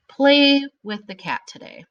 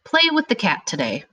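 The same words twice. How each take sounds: First: Command. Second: Said in the usual way. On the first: Shown as a demonstration. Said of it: "It's an imperative sentence". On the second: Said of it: "What kind of sentence is this?".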